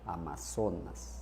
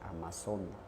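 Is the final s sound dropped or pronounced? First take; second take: pronounced; dropped. First: The final s sound is clearly pronounced. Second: The final s sound is left off. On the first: The speaker calls it right. "tengo que decir Amazonas" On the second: The speaker calls it wrong. "No obviar la S, ... No, no así"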